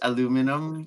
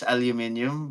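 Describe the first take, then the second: First: It is said with four syllables, American style. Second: It is said with five syllables, European style. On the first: "it's aluminum in the U S" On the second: "how you pronounce it in Europe is aluminium"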